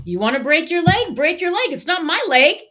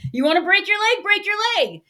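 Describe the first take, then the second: First: Higher, louder mock of a blunt mother; mother's blunt saying. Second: Higher, louder imitation of a Sicilian accent. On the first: Sicilian mom telling her son to take risks, mock blunt. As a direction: toss it off like a no-nonsense mom. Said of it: "she would have this saying". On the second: Server quoting his Sicilian mom, lively Sicilian accent. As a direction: channel a Sicilian mother in a Sicilian accent. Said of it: "in this fantastic Sicilian accent".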